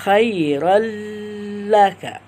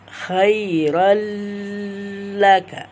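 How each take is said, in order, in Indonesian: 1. Bunyi n menyatu menjadi bunyi l yang dipanjangkan. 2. Bunyi n menyatu menjadi bunyi l yang dipanjangkan.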